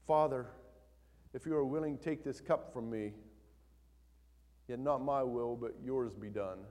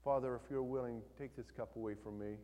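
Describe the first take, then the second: First: Louder, pleading reading of the prayer; earnest plea. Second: Calm reading. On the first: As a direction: read it as a real cry to the Father. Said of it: "We read it like this". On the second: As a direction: read it like a serene pretty picture. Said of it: "We read it like this, like we just read it". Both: Shown as a demonstration.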